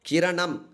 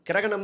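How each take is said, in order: First: It is said in the colloquial shortened form. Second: It is said in the formal full form. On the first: This is everyday spoken usage. "பேச்சு வழக்கு சொல்" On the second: This is pure literary usage. "தூய தமிழ் சொல்"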